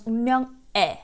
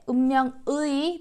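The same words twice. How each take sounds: First: The final vowel is a plain 'e' sound. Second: The final vowel is a gliding 'ui' sound.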